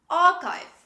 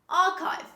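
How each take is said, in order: No difference in how they are said.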